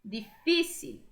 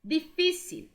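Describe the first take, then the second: First: Said in the usual way. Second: Difícil with the fi stressed and held; teacher modelling stress. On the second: Shown as a demonstration. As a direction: lean on the fi in Difícil. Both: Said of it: "Acento no fi".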